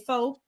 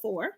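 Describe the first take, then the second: First: The final r sound is dropped. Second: The final r sound is pronounced. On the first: The speaker calls it wrong. "if I'm talking very fast, I might say faux" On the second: The speaker calls it right. "instead of four"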